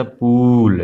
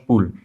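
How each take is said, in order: First: पूल with the ū drawn out long. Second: पुल with a quick, short u. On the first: Teacher shows pupils the long ū in पूल. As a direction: hold the vowel in पूल longer. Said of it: "वहीं पे अगर बड़ा ऊ की मात्रा रहता". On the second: Teacher shows pupils the short u in पुल. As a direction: say पुल briskly, cutting the u short. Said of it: "लेकिन छोटा मात्रा है तो क्या कहेंगे". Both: Shown as a demonstration.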